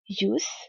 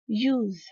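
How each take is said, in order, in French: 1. Le mot se termine par un son s sifflant. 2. Le mot se termine par un son z vibrant. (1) "en tant que nom, ... il va se prononcer comme un S" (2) "En tant que verbe, ... le S se prononce comme un Z"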